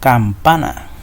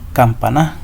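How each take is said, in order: First: The stress falls on the middle syllable. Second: The stress falls on a syllable other than the middle. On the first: The speaker calls it right. "Hace mayor fuerza de voz en el pa" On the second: The speaker calls it wrong. "si hago la mayor fuerza de voz en esta A? Diría campana"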